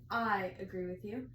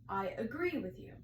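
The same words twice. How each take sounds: First: The stress falls on the word I. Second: The stress falls on the word agree. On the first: The speaker calls it wrong. "People tend to emphasize the first word of a, of a sentence" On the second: The speaker calls it right. "rather than saying the main point of the sentence"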